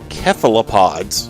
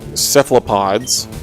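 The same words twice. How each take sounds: First: It is said following the Greek pronunciation. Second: It is said the common English way.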